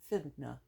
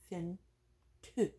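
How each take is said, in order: First: Both words merge into one word, finna. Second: The first word is shortened to fin.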